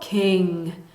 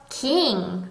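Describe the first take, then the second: First: The vowel is a short, lax i sound. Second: The vowel is a long, tense ee sound. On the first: The speaker calls it right. "으라는 소리였어요" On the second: The speaker calls it wrong. "이가 아니라"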